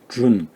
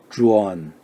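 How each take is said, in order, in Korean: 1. 받침 n 앞에 'o' 모음이 들리지 않아요. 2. 받침 n 앞에 약한 'o' 모음이 들려요. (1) "준 이렇게 발음하지 않습니다" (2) "어 발음이 약하게 들어가요"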